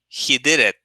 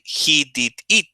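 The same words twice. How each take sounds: First: The words run together without breaks. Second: Each word is said separately with small breaks. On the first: The speaker calls it right. "You say it together" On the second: The speaker calls it wrong. "you don't say"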